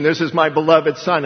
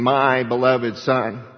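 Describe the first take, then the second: First: Said in the usual way. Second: Slow, with "my" leaned on and drawn out; stress on my. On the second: Shown as a demonstration. Preacher to his congregation, slowly stressing "my". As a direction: savour "my beloved Son", pressing on "my". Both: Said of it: "and I'm emphasizing".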